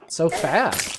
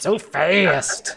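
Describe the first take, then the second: First: It is said in his normal voice. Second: It is said in a put-on Donald voice.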